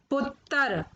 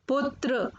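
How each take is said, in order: First: पुत्र said "puttar"; mispronounced पुत्र. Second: Said in the usual way. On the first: Shown as a demonstration. Teacher showing children the error, पुत्र said "puttar". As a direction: break the tr of पुत्र into "ttar". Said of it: "अशुद्ध शब्द मैंने रखे हैं". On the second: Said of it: "फिर उनका शुद्ध उच्चारण".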